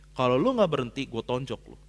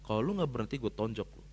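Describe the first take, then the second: First: Angry threat. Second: Low, soft, menacing repeat; quiet retold threat. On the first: Retold or imitated. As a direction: snap it at him like you mean it. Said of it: "keras nih saya". (ancaman marah yang diceritakan ulang) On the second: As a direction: say it under your breath, cold. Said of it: "Saya ngomong kayak gitu". (ancaman pelan dan dingin)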